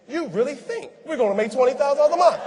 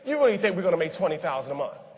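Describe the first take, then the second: First: The question sounds surprised and impressed. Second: The question sounds doubtful and dismissive. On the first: The asker thinks the speaker truly believes it. "she said the same thing, but she said it differently" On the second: The asker thinks the speaker does not believe it. "That means you don't even believe it"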